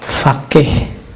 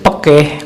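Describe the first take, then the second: First: It starts with an f sound, as in Arabic. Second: It starts with a p sound, Javanese style.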